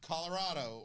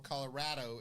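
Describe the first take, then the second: First: It is said with a non-local pronunciation. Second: It is said with the local pronunciation.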